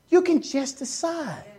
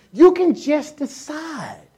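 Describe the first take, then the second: First: The same line again, softer; softer echo. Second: Each word drawn out slowly and firmly; slow emphatic. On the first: Preacher repeating to the church, quiet and firm. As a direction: drop it to a quiet, certain echo. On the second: Preacher urging the church, slow and emphatic. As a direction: press every word to make them choose. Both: Shown as a demonstration.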